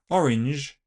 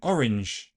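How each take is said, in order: First: It ends in a voiced j affricate. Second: It ends in a voiceless sh fricative.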